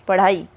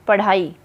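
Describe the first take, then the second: Both takes have the same delivery.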